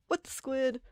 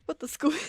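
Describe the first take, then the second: First: Put-on a light, higher anime-girl voice; playful mock of her kid self; childhood Squid Girl catchphrase. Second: Much higher and louder, laughing through it; Squid Girl catchphrase with a laugh. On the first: Streamer imitating herself as a kid, lightly higher anime voice. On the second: Retold or imitated. Streamer repeating her childhood catchphrase, higher, louder, laughing. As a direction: squeal it like an excited anime girl. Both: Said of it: "I would speak like Squid Girl from the anime".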